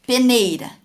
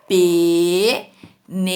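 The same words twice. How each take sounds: First: Said in the usual way. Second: Peneira drawn out as "pe... nei... ra"; syllable by syllable. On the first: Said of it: "Olha aqui o exemplo de peneira". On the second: Shown as a demonstration. Teacher asking pupils for the tonic syllable, slow syllable breakdown. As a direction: split "Peneira" slowly and loudly into three syllables. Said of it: "qual que é a sílaba tônica?".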